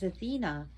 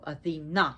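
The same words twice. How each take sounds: First: The stress is not on the last syllable. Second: The stress is on the last syllable. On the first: It names the city of Athens. The speaker calls it wrong. "is the Greek name for Athens" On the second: It names the goddess. The speaker calls it right. "the emphasis on the last part of the syllable"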